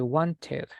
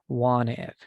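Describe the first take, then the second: First: The middle consonant is fully pronounced. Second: The middle consonant is dropped. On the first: The speaker calls it wrong. "we don't say wanted" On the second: The speaker calls it right. "we drop this letter"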